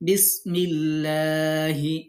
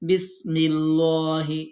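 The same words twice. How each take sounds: First: The L in the middle sounds thin and light. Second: The L in the middle sounds heavy and full. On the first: The speaker calls it right. "সঠিক হবে বিসমিল্লাহি।" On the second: The speaker calls it wrong. "তাহলে আপনি বুঝতে পারবেন যে তার উচ্চারণ হচ্ছে না।"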